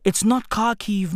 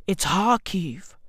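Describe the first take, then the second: First: "Kharkiv" with a hard K sound at the start. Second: "Kharkiv" said as harkiv, first K dropped; silent K Kharkiv. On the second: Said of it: "The K is silent". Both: Shown as a demonstration.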